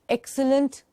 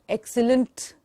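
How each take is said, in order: The two takes are said the same way.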